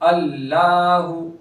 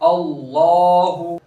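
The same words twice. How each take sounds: First: The L is said thin and light. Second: The L is said full and heavy. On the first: The speaker calls it wrong. "यहां अगर कोई बारीक करेगा कर, पढ़ेगा तो गलत है, जैसे अल्लाहु" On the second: The speaker calls it right. "पूर करेंगे अल्लाहु"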